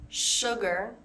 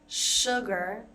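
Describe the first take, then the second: Both takes have the same delivery.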